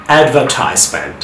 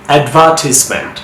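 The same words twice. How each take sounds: First: অ্যাডভার্টাইজমেন্ট as "ad-ver-TIZE-ment"; long "eye" in the middle of অ্যাডভার্টাইজমেন্ট; American "tize" in অ্যাডভার্টাইজমেন্ট; American pronunciation. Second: অ্যাডভার্টিজমেন্ট as "ad-VER-tis-ment"; short "i" in the middle of অ্যাডভার্টিজমেন্ট; British stress on "VER" in অ্যাডভার্টিজমেন্ট; British pronunciation. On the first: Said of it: "কীভাবে আমেরিকানরা sound করে". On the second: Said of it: "কীভাবে ব্রিটিশে sound করে". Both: Shown as a demonstration.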